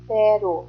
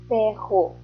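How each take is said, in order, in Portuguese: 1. O R do meio é um som leve, batido. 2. O R do meio é um som forte, gutural.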